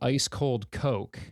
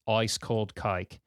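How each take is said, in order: First: It is said in the speaker's ordinary accent. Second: It is said in an Australian accent, vowel shifted.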